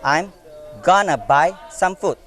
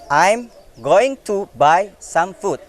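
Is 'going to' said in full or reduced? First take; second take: reduced; full. First: Going to is reduced to gonna. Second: Going to is said as two full words. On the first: "going to is become gonna in the second sentence" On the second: "First sentence"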